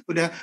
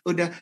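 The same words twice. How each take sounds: The two takes are said the same way.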